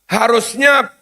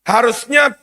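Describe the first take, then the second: Both takes have the same delivery.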